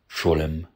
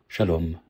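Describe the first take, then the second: First: It is said in a Yiddish pronunciation. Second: It is said in a modern Hebrew pronunciation. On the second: "Hebreo moderno"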